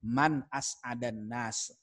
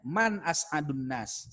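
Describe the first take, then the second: First: "as'adan" with a, slow; "Man as'adan nas" stretched, a in as'adan; answer reading. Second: "as'adun" with u, slow; "Man as'adun nas" stretched, u in as'adun; question reading. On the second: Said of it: "Jadi pertanyaannya". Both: Shown as a demonstration.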